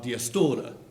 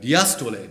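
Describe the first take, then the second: First: The word ends in a schwa. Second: The word ends in a full vowel. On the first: This is the everyday form. "in common pronunciation" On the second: This is the original Greek form. "the Greek word"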